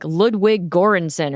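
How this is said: The name is pronounced with American English sounds. "the Americanized version"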